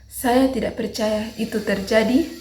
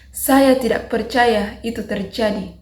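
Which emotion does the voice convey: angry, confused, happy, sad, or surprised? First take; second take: confused; angry. First: The voice is hesitant, rising at the end. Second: The voice is high-pitched and firm. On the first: "nada bingung. Kita menggunakan nada ragu-ragu naik di akhir" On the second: "marah, menggunakan nada tinggi dan tegas"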